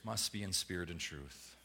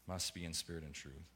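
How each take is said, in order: First: Low, quiet and deliberate, leaning on "must"; hushed, weighty "must be in spirit and truth"; solemn quiet statement. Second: Near-whispered echo of "Must be in spirit and truth"; softer echo. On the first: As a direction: lay it down softly as a verdict. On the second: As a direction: lower still, almost hushed repeat, "Must" lifting at the end. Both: Shown as a demonstration. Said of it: "Jesus says".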